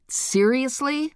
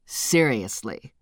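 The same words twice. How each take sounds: First: Higher, slow disbelieving question; incredulous high. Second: Low, slow deadpan answer; flatly confirm, lower. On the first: Cookie incredulous. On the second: Narrator deadpan reply. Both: Acted.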